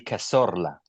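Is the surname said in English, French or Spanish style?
Spanish. The surname is said with a Spanish accent. "if you go full Spanish"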